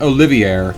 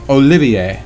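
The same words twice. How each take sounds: First: The final R sound is pronounced. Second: The final R sound is silent. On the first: The speaker calls it wrong. "it is not Olivier" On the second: The speaker calls it right. "The R is silent"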